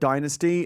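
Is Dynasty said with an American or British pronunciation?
American. It is said with an American pronunciation. The speaker has adopted the American way. The speaker calls it wrong. "I've completely just given up my Britishness"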